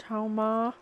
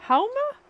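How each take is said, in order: First: Said in the usual way. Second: Much higher, sharp rising question; puzzled question. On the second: Real, not acted. Medium checking the spirit's word, puzzled high rise. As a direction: ask it back in disbelief.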